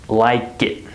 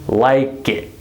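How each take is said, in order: No difference in how they are said.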